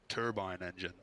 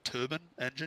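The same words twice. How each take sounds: First: The first word ends like 'bine', rhyming with 'line'. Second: The first word ends like 'ban', sounding like 'turban'. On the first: The speaker calls it right. "It's a turbine" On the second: The speaker calls it wrong. "like the fucking Sikhs wear on their head"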